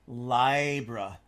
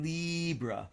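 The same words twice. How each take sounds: First: The word is said in a strong, upright way. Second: The word is said in a flat, wheedly way. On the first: It is the old way that restores the sign's power. The speaker calls it right. "that vertical eye, Libra, is much more vertical and strong" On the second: It makes the sign sound weak, like a mouse. The speaker calls it wrong. "which is very horizontal and kind of wheedly"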